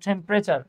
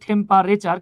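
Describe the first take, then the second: First: The word has a standard English pronunciation. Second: The word has a Bengali-style local pronunciation. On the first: This is the proper pronunciation. The speaker calls it right. "কিন্তু উচ্চারণ হচ্ছে টেম্পারেচার" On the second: This is how people locally tend to say it. The speaker calls it wrong. "আমরা বলি টেম্পারেচার"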